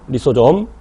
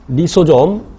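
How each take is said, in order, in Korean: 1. 마지막 음절은 j 소리로 시작해요. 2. 마지막 음절은 j 소리로 시작해요.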